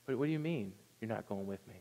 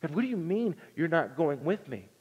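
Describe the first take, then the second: First: Stunned disbelief. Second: A shaken plea to God, voice rising; mild mock panic; terrified pleading. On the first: Retold or imitated. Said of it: "It could have been the worst words that Moses ever heard". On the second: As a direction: Moses gripped by terror, begging. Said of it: "this would have struck a terror in him".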